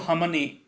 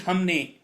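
First: The word is said with an extra middle syllable. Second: The word is said with two syllables. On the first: "There is no hamane, but but uh, there is a a added here" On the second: "so it's actually hamne"

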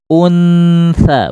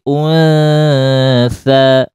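First: The n is fully closed before the s. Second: The n is a soft nasal blending into s. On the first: The speaker calls it wrong. "bukan ditempelkan" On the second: The speaker calls it right. "mengarah saja"

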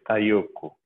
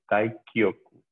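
First: The k sound before yoku is dropped. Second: The k sound before yoku is pronounced. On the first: The speaker calls it wrong. "hay gente que se come el Taikyoku y dice Taiyoku, no es Taiyoku" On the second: The speaker calls it right. "es Taikyoku"

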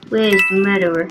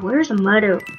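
First: It is said in a put-on sheriff voice. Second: It is said in the speaker's ordinary voice.

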